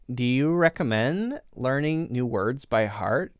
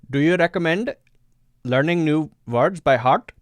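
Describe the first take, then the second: First: It is spoken in a Californian accent. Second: It is spoken in an Indian English accent.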